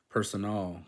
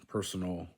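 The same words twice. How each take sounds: First: "personal" as per-so-NAL; full "al" closing "personal"; Spanish ending. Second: Said in the usual way. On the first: Shown as a demonstration. Learner reading the Spanish word, "personal" with full "al". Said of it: "stressed at the last syllable". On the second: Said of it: "words that end in al".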